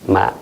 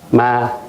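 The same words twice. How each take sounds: First: Said with the tone meaning seedling. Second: Said with the tone meaning ghost. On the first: The word means a young rice seedling. "jeune pousse de, de blé, de riz" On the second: The word means ghost. "fantôme"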